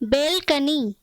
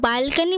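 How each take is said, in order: First: The first vowel sounds like 'eh' as in bed. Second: The first vowel sounds like 'ah' as in father. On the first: The speaker calls it right. "इसका सही pronunciation है बेलकनी" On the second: The speaker calls it wrong. "जो बालकनी बोलते हैं हम English में, वो गलत है"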